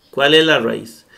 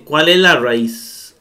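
First: Said in the usual way. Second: "¿cuál es la raíz?" drawn out slowly; slow question. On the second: Shown as a demonstration. (pregunta lenta: "¿cuál es la raíz?") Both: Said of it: "dice Septien".

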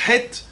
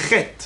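First: "Het" as an airy guttural H, no rasp. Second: "Chet" with a scraped kh, like Chaf; "Chet" begun with a harsh kh sound. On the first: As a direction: say "Het" with a light, unscraped throat h. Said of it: "Ils disent pas Het". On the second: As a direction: rasp the opening of "Chet" on the palate. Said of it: "ils disent Chet". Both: Shown as a demonstration.

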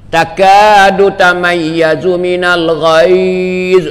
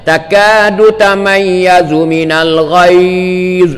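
First: Chanted, melodic, drawn-out recitation; chanted Quran verse. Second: Drawn-out Arabic verse, not sung; slow spoken recitation. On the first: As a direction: sing "Takadu tamayyazu minal ghaiz" slowly with a tune. (chanted, ayat dilagukan perlahan) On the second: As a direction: read "Takadu tamayyazu minal ghaiz" slowly, spoken. Recites verse before sung take. (bacaan ayat perlahan tanpa lagu) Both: Shown as a demonstration.

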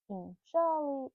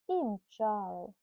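First: Said in the usual way. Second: I mchaly drawn out slower as a trailing echo; slowed echo. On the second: Acted. Mother echoing the chase line to her son, slower trailing repeat. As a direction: let the repeat slow down and fade.

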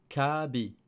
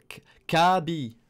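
First: Said in the usual way. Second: "Kabi" said slowly and louder, syllable by syllable; slow katakana reading. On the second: Shown as a demonstration. ("Kabi" lu lentement, plus fort)

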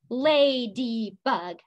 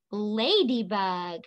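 First: "Ladybug" slowly, in three beats: la-dy-bug; split into syllables. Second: Said in the usual way. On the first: Shown as a demonstration. Teacher stomping with the class, "Ladybug" syllable by syllable. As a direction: separate each syllable of "Ladybug", one per stomp. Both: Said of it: "Let's stomp".

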